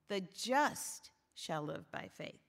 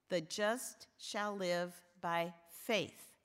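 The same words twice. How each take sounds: First: The stress is on "just". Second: The stress is on "faith".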